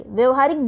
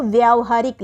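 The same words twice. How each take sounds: First: व्यवहारिक with short 'vya'; spoken form. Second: व्यावहारिक with long 'vyaa'; written form. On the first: Teacher showing the spoken form, short 'vya' in व्यवहारिक. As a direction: say व्यवहारिक with a short first vowel. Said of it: "बोलने में तो केवल व्यवहारिक होता है". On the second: Teacher showing the written form, long 'vyaa' in व्यावहारिक. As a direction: stretch the first vowel of व्यावहारिक. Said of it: "लिखने में इसको व्यावहारिक लिखा जाता". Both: Shown as a demonstration.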